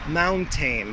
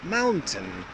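First: The last syllable has a full 'tain' vowel. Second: The last syllable is reduced to a short 'tin'. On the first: The speaker calls it wrong. "my students always pronounce it mountain" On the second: The speaker calls it right. "needs to be more of a tin"

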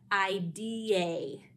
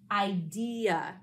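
First: The last syllable is a long 'ay' sound. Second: The last syllable is a weak 'uh' sound. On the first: The speaker calls it wrong. "that would sound like idea, which is not how we pronounce this word" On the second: The speaker calls it right. "Listen to how we pronounce the syllable in the word"

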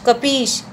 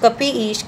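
First: The words merge into one with a long ee. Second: The two words are said apart, unjoined.

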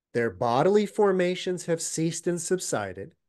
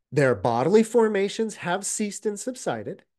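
The two takes are said the same way.

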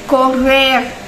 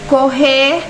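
First: It is said with a Mexican Spanish pronunciation. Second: It is said with a Brazilian Portuguese pronunciation. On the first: "e no México, correr" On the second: "no Brasil, correr"

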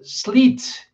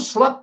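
First: The vowel is a long 'ee' sound. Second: The vowel is an open 'a' sound. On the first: The speaker calls it right. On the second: The speaker calls it wrong.

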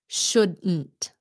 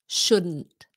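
No difference in how they are said.

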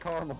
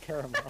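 First: The word is said in a short, clipped form. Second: The word is said in a longer, fuller form. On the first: It saves time. "how much time I saved us by saying caramel" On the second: It takes more time. "instead of caramel"

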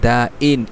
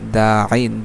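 First: The middle consonant is a light glottal stop. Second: The middle consonant is a deep throat sound. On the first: The speaker calls it wrong. "এমন যেন না হয়, তাহলে কিন্তু সেটা হামজা হয়ে যাবে" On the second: The speaker calls it right. "আইনটাকে গলার ভিতর থেকে উচ্চারণ করবে, হলকের মাঝখান থেকে"

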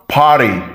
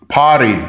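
The two takes are said the same way.

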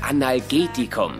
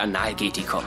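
First: The word flows smoothly, stress on a later syllable. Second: The opening syllables are stressed and set apart. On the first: It is a painkiller taken by mouth. The speaker calls it right. "Die Aussprache dieses Medikaments ist Analgetikum" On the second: It sounds like something taken anally. The speaker calls it wrong. "nicht Analgetikum"

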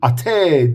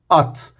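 First: An extra vowel is added after the final t. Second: The word ends cleanly on the t sound. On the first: The speaker calls it wrong. "ate değil" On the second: The speaker calls it right. "Bu şekilde öğrenmeli"

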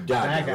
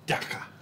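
First: It has hard g sounds, North American style. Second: It has a throaty g, South African style. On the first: "in North America, you see two G's together, you go Dagga" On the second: "he's from Cape Town, and he used to always go"

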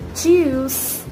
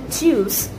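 First: The vowel is stretched out longer. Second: The vowel is kept short. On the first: "They elongate a bit" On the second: "instead of saying Tschüss"

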